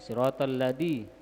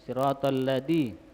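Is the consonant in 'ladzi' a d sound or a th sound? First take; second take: d sound; d sound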